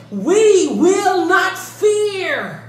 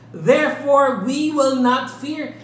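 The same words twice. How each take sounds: First: Slow, loud, higher, every word weighted; emphatic. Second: Said in the usual way. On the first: Shown as a demonstration. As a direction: hammer out "We will not fear" slowly. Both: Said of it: "that's an emphatic statement".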